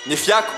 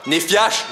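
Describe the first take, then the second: First: The name ends with a k sound. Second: The name ends with a sh sound. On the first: The speaker calls it right. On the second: The speaker calls it wrong.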